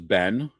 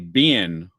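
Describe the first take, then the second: First: It is said in a plain accent. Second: It is said in a Southern accent.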